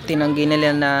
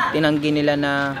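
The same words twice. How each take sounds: The two takes are said the same way.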